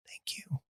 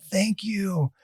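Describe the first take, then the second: First: Barely audible whisper; whispered thanks. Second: Higher, gently voiced gratitude; soft voiced thanks. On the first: Retold or imitated. Little lady to her defender as they leave, whispered. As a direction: mouth it with almost no voice. Grateful woman's hushed thanks retold. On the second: Little lady thanks her defender as they leave, softly voiced. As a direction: imitate a grateful lady, softly but audibly.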